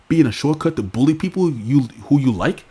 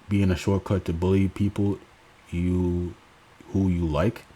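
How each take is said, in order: First: It is read in a changed, put-on tone. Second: It is read in the speaker's ordinary voice.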